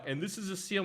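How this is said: It is said in a South African accent. "In South Africa, it's like"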